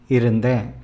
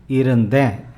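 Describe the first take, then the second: The two takes are said the same way.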